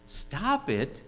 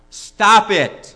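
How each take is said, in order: First: Shocked question. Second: Loud, high, falling outburst; shouted order. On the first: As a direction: repeat it back in disbelief. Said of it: "And she's shocked". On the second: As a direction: burst out with a blunt command. Therapist delivers his two words. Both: Acted.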